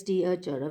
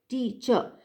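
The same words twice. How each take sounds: First: "T, a, ch, r" said as four separate syllables. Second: "teacher" in two natural syllables, tea-cher. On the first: Lecturer showing how we don't say teacher, in four syllables. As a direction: wrongly split "T, a, ch, r" into four beats. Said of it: "we don't say like this". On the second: Lecturer showing how we say teacher, in two syllables. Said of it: "we say teacher". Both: Shown as a demonstration.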